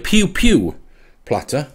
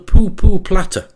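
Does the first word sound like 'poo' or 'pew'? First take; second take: pew; poo. First: The vowel sounds like 'ew' in 'few'. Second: The vowel sounds like 'oo' in 'pool'. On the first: "It could well be a pew-pew platter" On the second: "I would read it, is called a poo-poo platter"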